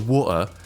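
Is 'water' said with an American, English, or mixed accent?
English. It is said with an English accent. Listeners would recognise it more easily. "an English accent of being like water"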